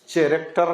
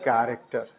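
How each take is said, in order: First: The word begins with a ch sound. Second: The word begins with a k sound. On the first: The speaker calls it wrong. "चैरेक्टर नहीं" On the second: The speaker calls it right. "इसमें पढ़ेंगे कैरेक्टर"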